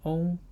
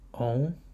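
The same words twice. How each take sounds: First: The pitch stays high and level. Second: The pitch rises from mid to high.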